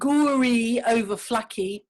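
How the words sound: The name is said with English sounds. "that's the English pronunciation"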